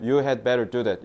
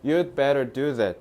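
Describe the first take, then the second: First: The word had is pronounced fully and separately. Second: The word had is reduced to a d sound. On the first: "친절하게 원어민들이 You had better do that 이렇게 발음하는 경우가 거의 없어요" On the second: "이런 식으로 하기 때문에"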